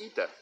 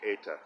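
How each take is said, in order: First: The first vowel is an 'ee' sound. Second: The first vowel is an 'ay' sound. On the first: This is how it is pronounced in Greece. "in Greece, it's pronounced ita" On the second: This is the American reconstructed pronunciation. "in American reconstructed Greek is pronounced usually eta"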